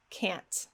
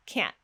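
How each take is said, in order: First: "Can't" with a fully released, audible T; "Can't" drawn out to a released final T. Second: "Can't" with the air stopped sharply in the throat; "Can't" cut off before any T burst; glottal-stop T. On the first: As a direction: finish "Can't" on a clear T burst. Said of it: "produce a regular release T". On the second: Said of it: "stopping the air very sharply in my throat". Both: Shown as a demonstration.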